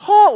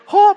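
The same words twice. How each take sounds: First: "oh" as an English exclamation; "oh" with English intonation. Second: "oh" as a Mandarin exclamation; "oh" with Mandarin intonation. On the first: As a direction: say "oh" like an English speaker's cry. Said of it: "if it's an English". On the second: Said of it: "or a Mandarin". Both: Shown as a demonstration.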